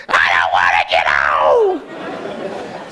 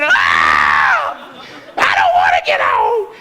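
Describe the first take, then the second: First: Hammed-up crying, dragging out every word; mock crying. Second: Mock screaming. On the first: Dad imitating his son crying in line for the roller coaster, hammed-up wail. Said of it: "Immediately he starts crying". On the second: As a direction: scream it out in hammed-up panic. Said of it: "He started screaming".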